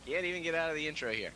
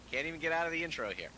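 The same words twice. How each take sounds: The two takes are said the same way.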